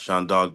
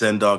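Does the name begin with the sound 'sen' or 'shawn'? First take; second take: shawn; sen. First: The name begins with a 'shawn' sound. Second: The name begins with a short 'sen' sound. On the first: The speaker calls it wrong. "not Sean Dog, but that's a mistake that people make" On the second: The speaker calls it right. "my name is pronounced [name]"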